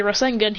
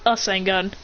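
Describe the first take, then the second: First: "Rasengan" with a clear R at the start. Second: "Rasengan" said as "Asengan", no initial R; R dropped. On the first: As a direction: say "Rasengan" beginning on an R sound. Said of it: "doesn't say Rasengan, he says". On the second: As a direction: start "Rasengan" on the vowel, leaving off the R. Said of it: "Minato doesn't say Rasengan". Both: Shown as a demonstration.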